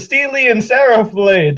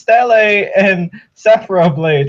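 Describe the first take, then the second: First: The first word is said like 'Steely'. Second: The first word is said like 'Stella'. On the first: The speaker calls it wrong. "I was like, oh" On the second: The speaker calls it right. "Oh no, it's uh, it's"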